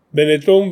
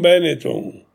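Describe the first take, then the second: First: The stress is on the last syllable. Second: The stress is on the first syllable. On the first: "pronunciato con l'accento dell'ultima sillaba" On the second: "Adesso invece cambia pronuncia"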